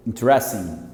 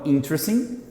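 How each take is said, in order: First: In-TRES-ing for "Interesting", low fall; second-syllable stress on "Interesting", pitch falling; stress on middle. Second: IN-tr-sing for "interesting", rising; front-stressed "interesting", left hanging up; stress at start. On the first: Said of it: "falando aqui com estresse aqui". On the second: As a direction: stress the first syllable of "interesting". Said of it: "A primeira é com estresse aqui". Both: Shown as a demonstration.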